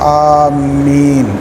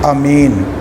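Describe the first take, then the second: First: The m sound is doubled in the middle. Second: The first vowel is short, m is single. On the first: "मीम पर शद करके" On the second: "बाज़ लोग कहते हैं कि इसको पढ़ा जाए अमीन"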